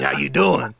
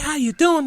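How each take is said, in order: First: The voice is deep and raspy. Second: The voice is soft and light. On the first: The speaker calls it wrong. "they talk like with their raspy voice" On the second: The speaker calls it right. "What happened to that soft voice?"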